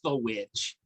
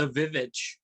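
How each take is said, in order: First: The word begins with a W sound. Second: The word begins with a V sound. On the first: The speaker calls it right. "I'm like, it's the witch" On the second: The speaker calls it wrong. "Some people still pronounce it the Vivitch"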